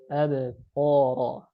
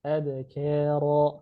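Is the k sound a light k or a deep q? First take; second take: deep q; light k. First: The k sound is a deep, thick q. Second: The k sound is light and thin. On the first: The speaker calls it wrong. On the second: The speaker calls it right. "Ka. Harusnya tipis"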